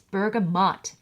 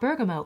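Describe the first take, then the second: First: The word ends with a t sound. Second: The word ends without a t sound. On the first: The speaker calls it right. "It's bergamot" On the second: The speaker calls it wrong. "It's not bergamo"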